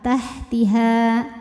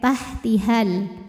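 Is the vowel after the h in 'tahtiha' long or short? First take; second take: long; short. First: The final vowel is held long. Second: The final vowel is short, linked to l. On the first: The reciter stops at this word. "maka panjangkan dua harokat" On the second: The reciter continues into the next word. "haknya pendek"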